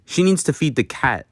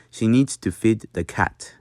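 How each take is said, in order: First: Said in the usual way. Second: Short, crisp vowel in "needs" and "feed". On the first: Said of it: "if I were to say". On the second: Shown as a demonstration. Teacher showing learners a Dutch accent, short crisp "feed". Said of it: "make it shorter and crisper".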